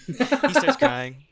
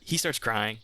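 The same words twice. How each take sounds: First: Words pushed out loud and high; loud high wail. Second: Said in the usual way. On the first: Acted. GM acting the lordship breaking down, high loud cry. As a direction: GM cries out the line himself, loud and high.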